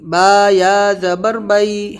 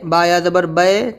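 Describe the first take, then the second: First: The final vowel is a low, soft 'ai' glide. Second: The final vowel is a raised, plain 'e' sound. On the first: The speaker calls it right. "आवाज़ बिल्कुल नीचे, यानी आई बई ऐसे होना चाहिए" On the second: The speaker calls it wrong. "ज़्यादातर लोग ऐसे ही पढ़ते हैं, ये तरीक़ा ठीक नहीं है"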